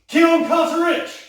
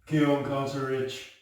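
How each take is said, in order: First: It is said with lively energy. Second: It is said flatly, without energy. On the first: The speaker calls it right. "we want life" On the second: The speaker calls it wrong. "There's no life in it"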